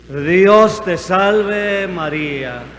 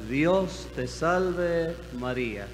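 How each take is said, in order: First: It is said loudly. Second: It is said at normal volume.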